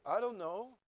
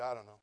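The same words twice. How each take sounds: First: Rising, unsure "I don't know"; wrong version. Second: Low, flat, offhand "I don't know"; careless shrug. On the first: Shown as a demonstration. Preacher showing how the wife did not answer, rising and unsure. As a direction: ask it, as if puzzled. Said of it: "She didn't say". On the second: Retold or imitated. Wife answering the proposal, indifferent and offhand. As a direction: toss it away, not caring. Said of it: "She said".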